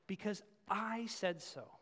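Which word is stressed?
I. The stress falls on the word I.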